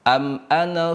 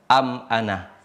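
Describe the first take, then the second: First: The final vowel of ana is short. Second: The final vowel of ana is long. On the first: The reading continues without stopping. "ana di sini dibaca dengan pendek" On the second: The reading stops at this word. "dibaca dengan dua harokat"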